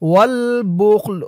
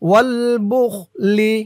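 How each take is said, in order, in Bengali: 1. শেষ শব্দটি 'l' ধ্বনি দিয়ে শেষ হয়। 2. শেষ শব্দটি 'i' স্বরধ্বনি দিয়ে শেষ হয়।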